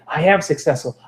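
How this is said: It is said with strong emotional feeling.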